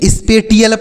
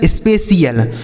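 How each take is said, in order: First: The middle consonant is a t sound. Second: The middle consonant is an sh sound. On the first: The speaker calls it wrong. "टी एल पढ़ेंगे... गलत उच्चारण होता है" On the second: The speaker calls it right. "इसे आपको ऐसे पढ़ना जैसे हमने बताया"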